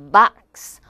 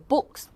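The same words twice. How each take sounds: First: "box" with open "ah", louder; American O. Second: "books" meant as box with rounded "o"; British O. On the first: Teacher contrasts American vowel, "box" as loud bahks. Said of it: "미국 사람들은 왠지". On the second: Teacher shows British vowel, "books" as rounded boks. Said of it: "오 발음에 가깝게 해서". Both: Shown as a demonstration.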